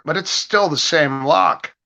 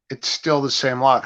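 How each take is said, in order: First: "still" stretched with a rising tune, slowed; emphasis on still. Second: Said in the usual way. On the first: Real, not acted. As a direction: lean on "still" and let the line rise slowly. Repeating a point with emphasis.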